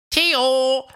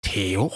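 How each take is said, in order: First: Loud high call across the distance. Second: Said in the usual way. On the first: A narrator's reading. Fred calls for Theo at his cave, loud. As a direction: shout for your friend. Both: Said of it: "um nach Theo zu sehen".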